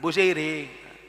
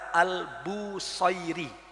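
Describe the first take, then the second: First: It is said the Madurese way, with Madurese sounds. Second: It is said the Arabic way, with 'sai'.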